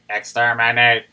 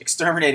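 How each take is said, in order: First: It is said in a put-on robot voice. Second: It is said in his normal voice.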